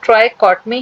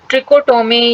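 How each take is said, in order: First: The first syllable sounds like 'try'. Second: The first syllable sounds like 'tri'. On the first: The speaker calls it right. "इसका true pronunciation ट्राइकॉटमी है" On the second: The speaker calls it wrong. "बहुत से teacher या बहुत से students इसको ट्रिकोटोमी या ट्रिशोटोमी इस तरीके से भी प्रोनाउंस कर लेते हैं"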